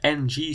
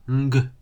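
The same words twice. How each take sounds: First: "ng" as the Dutch nasal. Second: "ng" with a g after it; English ng. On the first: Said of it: "the N G sound in Dutch is ng". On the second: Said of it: "not ng". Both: Shown as a demonstration.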